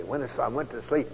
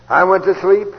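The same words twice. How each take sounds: First: Said in the usual way. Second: Sleep called out loud and rising; loud emphatic repeat. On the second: Shown as a demonstration. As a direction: hammer the word sleep home.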